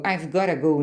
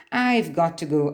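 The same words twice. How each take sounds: First: "gotta" run together as one casual word; informal reduced "gotta". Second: Said in the usual way. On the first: Shown as a demonstration. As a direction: blend got and to into a relaxed "gotta". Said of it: "informalmente expresso como gotta". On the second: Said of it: "Porque got to pode ser".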